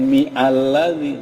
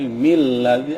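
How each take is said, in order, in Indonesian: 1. Alladzi dimulai dengan vokalnya sendiri, terpisah dari m. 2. M langsung menyambung ke ladzi, tanpa awalan vokal. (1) "bukan mi alladzi" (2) "tapi mil ladzi, alifnya mati"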